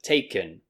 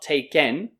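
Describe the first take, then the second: First: The last syllable is a weak, reduced n. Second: The last syllable has a full E vowel. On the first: The speaker calls it right. "this en will be pronounced like n" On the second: The speaker calls it wrong. "So not taken"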